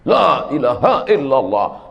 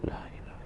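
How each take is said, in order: First: It is said loudly and forcefully. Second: It is said softly and slowly.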